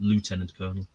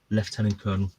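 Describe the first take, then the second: First: It is said with an American accent. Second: It is said with a British accent.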